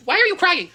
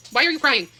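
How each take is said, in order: First: Higher, louder worried call; concerned call to dog. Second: Said in the usual way. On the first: Real, not acted. To her whining dog, a raised worried call. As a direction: reach the whining dog from across the room.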